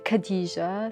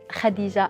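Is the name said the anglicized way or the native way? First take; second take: anglicized; native. First: The name is said in a simplified, anglicized way. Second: The name is said in its native Arabic way. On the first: This is the easy version for others to say. "I usually say Khadija, so people can can uh, pronounce it and don't struggle" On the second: This is the true form of the name. "but I am Khadija"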